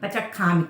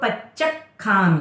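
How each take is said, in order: First: The middle consonant is single and unstressed. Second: The middle consonant is doubled and stressed. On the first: The speaker calls it wrong. "पचखामी कुछ तो हो जाता है" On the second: The speaker calls it right. "डबल च है, क हाफ है"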